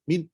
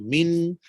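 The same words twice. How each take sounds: First: The m is said without any nasal hum. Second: The m is held with a long nasal hum. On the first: The speaker calls it wrong. "Cuba kalau tak ada dengung" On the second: The speaker calls it right. "Jadi dia tetap ada dengung"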